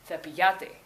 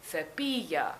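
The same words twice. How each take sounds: First: "cepillate" stressed on the "lla", cepi-LLA-te; stress shifted off the I. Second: "cepilla" with a strong, stretched PI; stress on the I. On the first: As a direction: move the weight past the I onto "lla" in "cepillate". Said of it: "instead of". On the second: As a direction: punch the I in "cepilla", ce-PIII-lla. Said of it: "keep that emphasis on the I". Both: Shown as a demonstration.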